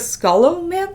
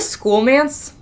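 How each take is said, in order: First: The first syllable sounds like 'skull'. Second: The first syllable sounds like 'school'. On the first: The speaker calls it right. "it's actually" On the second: The speaker calls it wrong. "I've been calling it"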